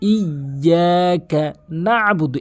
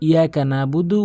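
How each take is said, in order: First: The 'y' sound is held and doubled. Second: The 'y' sound is short and single. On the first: The speaker calls it right. "তাসদিদের উচ্চারণ ডাবল করতে হবে" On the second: The speaker calls it wrong. "অধিকাংশ লোক বলে ... মানে সম্পূর্ণ ভুল"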